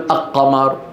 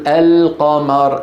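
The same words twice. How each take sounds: First: The L merges into the following Q. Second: The L is pronounced clearly before Q. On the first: The speaker calls it wrong. "ما تقول القمر" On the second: The speaker calls it right. "لأنك تقول القمر"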